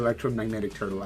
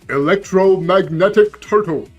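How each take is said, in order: First: It is said in the speaker's normal voice. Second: It is said in an imitated character's voice. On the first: "I don't hear electromagnetic turtle" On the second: "I hear electromagnetic turtle, right? Because Pharaoh"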